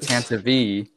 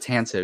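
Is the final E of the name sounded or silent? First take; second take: sounded; silent. First: The final E is sounded as an extra syllable. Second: The final E is silent, with no extra syllable. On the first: The speaker calls it right. "is actually pronounced the Tantive V" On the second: The speaker calls it wrong. "and not the Tantive"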